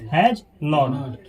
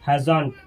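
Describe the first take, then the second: First: 'Not' is a separate, full word. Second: 'Not' is reduced and attached to the verb.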